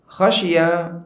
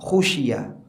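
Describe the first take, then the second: First: The first vowel is an open 'a' sound. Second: The first vowel is a rounded 'u' sound. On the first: He himself was the one who feared. "diriwayatkan dengan huruf kha di fathah" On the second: It was feared by others. "dan diriwayatkan dengan kha-nya di dhamma"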